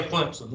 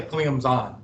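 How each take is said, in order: First: "Clemson" said the local way, klim-pson with a P sound. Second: "Clemson" said the ESPN way, with a clear Z sound; ESPN's Clemson. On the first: Shown as a demonstration. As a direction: say "Clemson" as the locals do, a soft P in the middle. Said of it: "They don't say Clemson like we do". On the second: Retold or imitated. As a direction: imitate the TV way of saying "Clemson" with a Z. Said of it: "They say Clemson".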